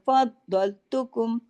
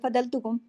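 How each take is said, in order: First: The consonant is held long and said doubled. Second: It is said quickly with the consonant single. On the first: The speaker calls it right. "फद एक पढ़ा गया, दौल दूसरा पढ़ा गया" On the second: The speaker calls it wrong. "अगर मैं इसको जल्दी से ढीला डाल, ... एक फ- द्वाद पढ़ा जाएगा, दूसरा नहीं पढ़ा जाएगा"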